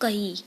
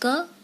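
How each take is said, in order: First: The letter is said as 'kai'. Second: The letter is said as plain 'ka'. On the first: The speaker calls it wrong. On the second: The speaker calls it right.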